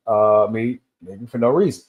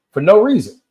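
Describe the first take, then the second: First: Said in the usual way. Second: "no" hit much higher and louder, falling after; stress on no. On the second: Shown as a demonstration. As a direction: punch the word "no" hard. Repeats phrase with emphasis.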